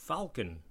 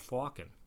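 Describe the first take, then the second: First: The L sound is pronounced. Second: The L sound is silent. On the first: This pronunciation follows the written letters. "the pronunciation of falcon with an L" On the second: This is the older historical pronunciation. "It's historically a"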